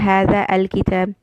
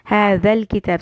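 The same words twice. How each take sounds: First: The 'a' of 'al' is pronounced separately. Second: The 'a' of 'al' is dropped, words linked. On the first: The speaker calls it wrong. "I will not say هذا الكتاب" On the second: The speaker calls it right. "that alif a which I had put fatha, that will go away. In joining"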